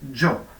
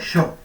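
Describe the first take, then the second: First: The first consonant is voiced, with buzzing. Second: The first consonant is voiceless, like sh.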